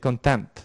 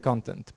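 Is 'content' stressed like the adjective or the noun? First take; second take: adjective; noun. First: It carries the stress pattern of the adjective. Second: It carries the stress pattern of the noun. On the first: It means satisfied. "if we are talking about the adjective that you are satisfied, we say content" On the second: It means the material or subject matter. "If we're referring to the noun, we say content"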